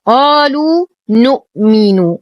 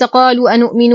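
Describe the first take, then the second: First: قالوا نؤمن chanted as "qaaluu nu'minu"; نؤمن with no "a" in front; no added hamza. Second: قالوا أنؤمن said "qaaluu anu'minu"; أنؤمن with an extra glottal onset; wrong added hamza. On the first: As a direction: glide from قالوا straight to the n of نؤمن. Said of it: "وليس قالوا أنؤمن". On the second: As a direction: insert "a" before the n of أنؤمن. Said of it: "وليس قالوا أنؤمن وهذا". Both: Shown as a demonstration.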